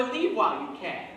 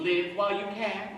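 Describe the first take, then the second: First: The vowel of "Leave" long, as in sleeve; "Leave" with a long ee, leave while you can; saying leave. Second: The vowel of "Live" short, as in give; "Live" with a short i, live while you can; saying live. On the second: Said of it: "Is she saying". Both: Shown as a demonstration.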